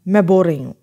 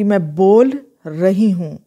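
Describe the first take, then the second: First: It is said fast, with l blended into r. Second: It is said slowly, with l and r separate. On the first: "casually बोल रहे हैं तो मैं ये कहूँगी, फास्टली बोलूँगी" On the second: "मैं ये नहीं कहूँगी"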